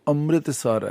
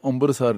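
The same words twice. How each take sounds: First: No b sound is heard after the m. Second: A b sound is inserted after the m. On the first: The speaker calls it right. "ਅੰਮ੍ਰਿਤਸਰ ਹੈ" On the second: The speaker calls it wrong. "ਜਦੋਂ ਕਿ ਬੱਬਾ ਨਹੀਂ ਬੋਲਿਆ ਜਾਂਦਾ, ਅੰਮ੍ਰਿਤਸਰ ਨਹੀਂ ਹੈ"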